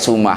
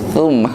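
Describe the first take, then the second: First: The word begins with a hissing s sound. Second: The word begins with a th sound. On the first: The speaker calls it wrong. "Sin dan sa teh gak ada bedanya" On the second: The speaker calls it right. "harusnya mah summa"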